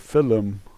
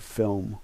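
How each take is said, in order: First: The word is said with a foreign pronunciation. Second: The word is said the usual native way. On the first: This is how some foreigners say it. The speaker calls it wrong. "Some foreigners say film" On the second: This is how the speaker's own people say it. The speaker calls it right. "We say film"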